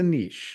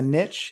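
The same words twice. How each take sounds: First: The word rhymes with quiche, long vowel. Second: The word rhymes with rich, short vowel. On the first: "if you want to be riche, it's a niche" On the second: "If you're if you want to be rich, it's a niche"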